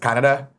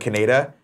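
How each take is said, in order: First: The name is said in its original pronunciation. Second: The name is said in a French Canadian way. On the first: This is how the remastered version said it. "the way it's supposed to be pronounced" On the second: This is how the old dub said it. "instead of Canada"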